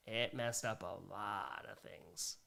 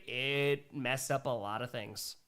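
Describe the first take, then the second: First: Low, slow and hushed on "It messed up a lot of things"; slow, sobered agreement, pitched down; grave echo. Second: Said in the usual way. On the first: Real, not acted. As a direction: repeat it softly to yourself, drawn out. Echoes the comment gravely.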